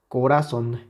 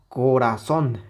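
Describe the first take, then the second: First: The last syllable is said without stress. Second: The last syllable is said with stress. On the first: "si quitamos la intensidad a la última sílaba" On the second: "Ya no es lo mismo que corazón"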